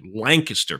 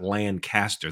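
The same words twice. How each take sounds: First: Lancaster is pronounced as the Pennsylvania town's name. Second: Lancaster is pronounced as the California city's name. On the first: It names the town in Pennsylvania. The speaker calls it right. "Lancaster, Pennsylvania, although spelled the same" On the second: It names the city in California. The speaker calls it wrong. "It's not Lancaster. That's in California"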